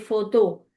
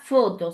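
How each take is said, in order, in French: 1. L'accent tombe sur la dernière syllabe. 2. L'accent tombe sur la première syllabe. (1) "Et tu dois accentuer la dernière" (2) "Ce n'est pas photo"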